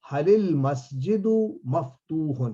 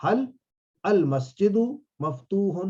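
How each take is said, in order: First: "هل المسجد" run together as "halil-masjidu", drawn out slowly; joined pronunciation. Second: "هل" ends on a bare l, pause before "المسجد"; unjoined pronunciation. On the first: Teacher showing students the linked question, words joined slowly. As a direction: link "هل" into "المسجد" with a short i. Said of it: "یہ ملانے کے لیے ہے". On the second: Teacher showing students the underlying form, words kept apart. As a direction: separate "هل", "المسجد" and "مفتوح" with small breaks. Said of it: "اصل میں تو حل ہے". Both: Shown as a demonstration.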